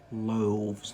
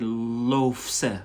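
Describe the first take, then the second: First: A v sound comes before the ending. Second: An f sound comes before the ending. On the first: The speaker calls it right. "you say loaves" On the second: The speaker calls it wrong. "you don't say loafs"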